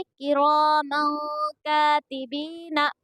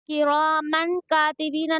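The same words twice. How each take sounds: First: "किरामन कातिबीना" slowly, the final N of किरामन held as a nasal hum; "किरामन कातिबीना" chanted with a lingering nasal before का; hidden nun. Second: "किरामन कातिबीना" with a clear N closing किरामन; quick "किरामन कातिबीना", the nun fully sounded as "man"; wrong reading. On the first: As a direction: recite "किरामन कातिबीना" with nun hidden and long vowels drawn out. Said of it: "नून की आवाज़ को छुपाई जाएगी". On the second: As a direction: say "किरामन कातिबीना" without nasal hold or long vowels. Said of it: "नहीं पढ़ेंगे हम लोग". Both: Shown as a demonstration.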